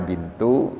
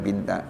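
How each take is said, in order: First: The word ends with an u vowel. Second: The word ends with an a vowel. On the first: "dibaca bintu" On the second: "dibaca lagi binta"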